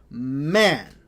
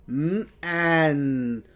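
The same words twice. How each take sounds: First: "Man" blended into one smooth word. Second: "Mm, an" held apart; sounding out. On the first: Teacher blends the sounds for the class. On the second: Teacher segmenting the word for students. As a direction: sound out "Mm" then "an". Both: Shown as a demonstration. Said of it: "Let's put it all together".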